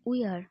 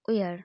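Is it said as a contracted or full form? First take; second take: full; contracted. First: Both words are said separately in full. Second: The words are joined into one short syllable.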